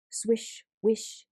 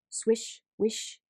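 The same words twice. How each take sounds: The two takes are said the same way.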